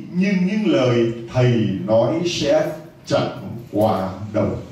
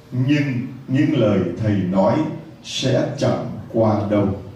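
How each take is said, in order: Both takes have the same delivery.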